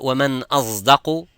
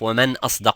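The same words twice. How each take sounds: First: The ṣ sound is blended toward a z. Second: The ṣ sound is a plain emphatic s. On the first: This is a dialect variant of the word. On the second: This is the standard form of the word. "instead of"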